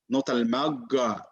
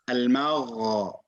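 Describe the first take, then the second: First: The gh sound is a hard 'g' stop. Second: The gh sound lets air flow freely. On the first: The speaker calls it wrong. "the common mistake in Ghain is Ga" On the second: The speaker calls it right. "You allow the airflow just to be free"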